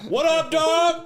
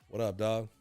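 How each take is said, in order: First: It is said louder. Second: It is said at normal loudness.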